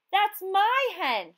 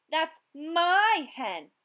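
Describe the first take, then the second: First: Higher, louder and slow; slow loud protest; crying out. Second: Angry yell. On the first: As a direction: claim the hen with all her voice. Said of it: "she cried to the fisherman". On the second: Fisherman yelling after her. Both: A narrator's reading.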